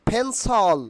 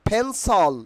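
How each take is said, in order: Both takes have the same delivery.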